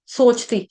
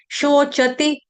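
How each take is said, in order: First: "सोचती" with a plain s and no vowel after च; wrong s sound. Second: "शोचति" as sho-cha-ti with sh and short final i; correct sh, short vowels. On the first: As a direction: say "सोचती" as soch-tee, like the everyday Hindi word. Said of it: "इसको सोचती नहीं पढ़ेंगे". ("सोचती" में स, सोच वाला गलत उच्चारण) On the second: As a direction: say "शोचति" in three syllables, keeping च and ति short. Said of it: "Shabari वाला श है". ("शोचति" में शबरी वाला श, छोटी ति) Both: Shown as a demonstration.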